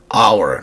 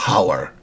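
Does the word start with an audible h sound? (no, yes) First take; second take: no; yes. First: It starts with a vowel, no h sound. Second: It starts with an audible h sound. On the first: The speaker calls it right. "the sound is a vowel. We say hour" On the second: The speaker calls it wrong. "not hour"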